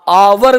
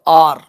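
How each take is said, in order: First: It is said as two syllables, with a w. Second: It is said as one open syllable. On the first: The speaker calls it wrong. "आवर भी sound गलत है इसका" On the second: The speaker calls it right. "वह होता है बिल्कुल हल्का सा पार्शियल"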